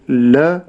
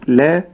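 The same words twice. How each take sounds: First: The l sound is heavy and full. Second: The l sound is light and thin. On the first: The speaker calls it wrong. "اللام لا أقول لا" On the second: The speaker calls it right. "واللام مرققة، ولكن أقول لا"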